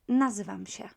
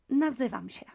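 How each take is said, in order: Both takes have the same delivery.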